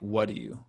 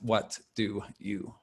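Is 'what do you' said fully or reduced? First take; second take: reduced; fully. First: The words are run together quickly and reduced. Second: Each word is pronounced fully and separately. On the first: The speaker calls it right. "Many native speakers are going to say something like" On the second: The speaker calls it wrong.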